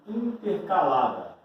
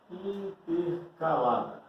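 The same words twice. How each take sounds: First: Said in the usual way. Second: "Intercalada" lento, partido em in-ter-calada; ditado pausado. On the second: Shown as a demonstration. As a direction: repita "Intercalada" devagar, separando as sílabas. Repete o termo como ditado. (termo ditado devagar, sílaba por sílaba)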